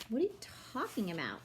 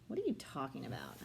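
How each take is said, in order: First: Mocking mimicry. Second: Said in the usual way. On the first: A narrator's reading. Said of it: "Alex mimicked". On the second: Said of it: "I said".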